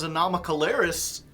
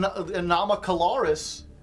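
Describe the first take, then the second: First: The ending rhymes with 'Harris'. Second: The ending does not rhyme with 'Harris'. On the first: The speaker calls it wrong. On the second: The speaker calls it right.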